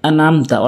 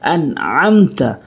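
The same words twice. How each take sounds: First: The middle throat sound 'ain' is left out. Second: The middle throat sound 'ain' is clearly pronounced. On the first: The speaker calls it wrong. "অনেকেই বলে আনআমতা অর্থাৎ আইনগুলো উচ্চারণ করে না" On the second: The speaker calls it right. "আম চাপ দিয়ে আনআমতা"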